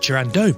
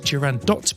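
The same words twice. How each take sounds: First: The final T sound is silent. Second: The final T sound is pronounced. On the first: The speaker calls it wrong. "I always thought it was Turandot" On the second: The speaker calls it right. "in fact only in French you wouldn't pronounce the T"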